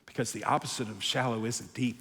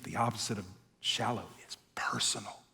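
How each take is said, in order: First: Quiet emphasis. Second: Softly whispered punchline; hushed sermon climax. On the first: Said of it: "quiet point before whisper". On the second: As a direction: breathe it as a secret. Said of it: "whispered key line". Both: Real, not acted.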